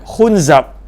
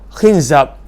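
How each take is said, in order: First: The first syllable has the vowel u. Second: The first syllable has the vowel i. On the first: The speaker calls it wrong. "baris depan" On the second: The speaker calls it right. "baris bawah"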